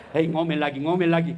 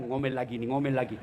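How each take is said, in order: First: Imagined grumbling, building. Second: Low, softer dread of nagging; imagined grumbling. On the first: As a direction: repeat it with growing weight, as a fed-up husband. (gerutuan suami yang makin keras) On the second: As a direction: grumble it low, as a husband thinking to himself. (gumaman suami, rendah dan pelan) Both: Acted. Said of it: "tiba-tiba dia bayangkan".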